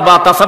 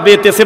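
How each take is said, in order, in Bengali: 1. বর্ণের নামগুলো 'a' স্বরধ্বনি দিয়ে শেষ হয়। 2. বর্ণের নামগুলো 'e' স্বরধ্বনি দিয়ে শেষ হয়। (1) "নাতি ... বা তাসা বানা দিলে" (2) "এত বড় বড় হুজুরের কাছে পড়ছি বেতেছে"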